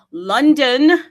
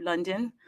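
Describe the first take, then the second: First: Loud, high shout of the city name; calling out. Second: Said in the usual way. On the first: Acted. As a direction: call London in like a roll call. Calling cities into the space.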